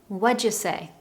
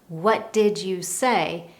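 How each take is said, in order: First: The words run together with sounds reduced. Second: Each word is said separately and fully. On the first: "native speakers often blend the sounds between words" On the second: "you don't hear"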